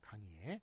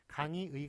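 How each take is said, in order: First: The last syllable has the vowel 'e'. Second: The last syllable has the vowel 'ui'. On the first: This is an allowed pronunciation. "강의의와 강의애 둘 다 맞다고" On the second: This is the standard pronunciation. "강의의와 강의애 둘 다 맞다고"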